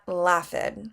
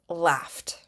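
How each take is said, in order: First: The ending is an extra id syllable. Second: The ending is a short t sound. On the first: The speaker calls it wrong. "Not laughed" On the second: The speaker calls it right. "turn it into just a t or d sound"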